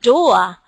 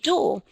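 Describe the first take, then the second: First: The vowel is a gliding diphthong. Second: The vowel is a single pure vowel. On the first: This is how the locals say it. "they were saying things like um, door" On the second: This is not how the locals say it. "meaning door"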